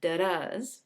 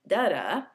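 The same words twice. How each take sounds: First: "da-das" with the weight on the second syllable, da-DAS; iambic stress. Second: "da-da" with the weight on the first syllable, DA-da; reversed stress. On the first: Teacher showing what an iamb sounds like, iambic stress. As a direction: say "da-das" weak then strong. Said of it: "Iambic means that it has iambs". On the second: Teacher contrasting the opposite of an iamb, reversed stress. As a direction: hit the first "da", drop the second. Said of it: "instead of something like". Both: Shown as a demonstration.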